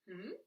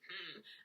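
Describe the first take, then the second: First: It sounds like a question being asked. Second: It sounds grumpy and displeased.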